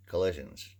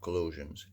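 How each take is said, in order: First: "collisions" said as the right word, with a short i as in "lid"; "collisions" with a clear short i in the middle, the corrected take; "collisions" said firmly as the fix. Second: "collusions" said as the wrong word, with u as in "rule"; "collusions" with an oo sound in the middle, the word he does not mean; "collusions", the mistaken take, said a bit softer. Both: Shown as a demonstration. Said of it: "not collusions".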